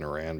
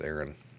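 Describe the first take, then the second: First: The name sounds like the country Iran. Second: The name sounds like the given name Aaron. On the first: The speaker calls it wrong. "I'm saying Iran" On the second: The speaker calls it right. "but I think it's Aaron"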